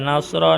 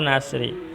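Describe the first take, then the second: First: The word ends with an a vowel. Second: The word ends with an i vowel. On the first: "tidak boleh dibaca nasro" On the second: "tidak boleh"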